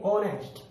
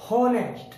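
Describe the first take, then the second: First: ऑनेस्ट starting on the vowel, no h; silent h. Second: हॉनेस्ट with a clear h, a little higher; wrong way, h sounded. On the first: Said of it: "हम एच का उच्चारण नहीं करेंगे". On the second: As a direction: say हॉनेस्ट as the mistaken version with h. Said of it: "तो हम इसे क्या पढ़ेंगे?". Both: Shown as a demonstration.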